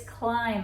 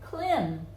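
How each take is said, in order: First: The vowel is long, saying the letter's name. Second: The vowel is short, as in a rule-following reading. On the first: The speaker calls it right. "But it doesn't, it's climb" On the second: The speaker calls it wrong. "if it were following the rules of these, it would be klim"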